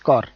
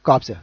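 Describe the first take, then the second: First: The final p and s sounds are silent. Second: The final p and s sounds are pronounced. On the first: The speaker calls it right. "actually no, it's కార్. పి silent ఇయర్" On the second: The speaker calls it wrong. "No, actually no"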